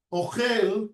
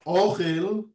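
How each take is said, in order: First: "Ochel" stressed on the last syllable, o-CHEL; mil'ra stress. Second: "Ochel" stressed on the first syllable, O-chel; mil'el stress. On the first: Teacher explaining the word for eating, "Ochel" with final stress. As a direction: land on the end of "Ochel". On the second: Teacher explaining the word for food, "Ochel" with first-syllable stress. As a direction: lean on the O of "Ochel". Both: Shown as a demonstration. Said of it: "It's two different things".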